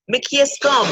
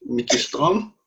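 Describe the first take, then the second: First: Jamaican patois phrase "Mickey Strom", said higher and a little louder. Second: A non-Jamaican echoing "Mickey Strom?" with a questioning rise; failed Jamaican attempt. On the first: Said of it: "as we would say in Jamaican dialect". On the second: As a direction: try the Jamaican patois phrase "Mickey Strom" and miss it. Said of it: "No, I didn't get that right". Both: Shown as a demonstration.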